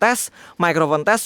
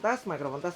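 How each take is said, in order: First: The voice is picked up from in front. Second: The voice is picked up from behind. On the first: "aku ngomong di depan mikrofonnya" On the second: "ini posisi di belakang mikrofon"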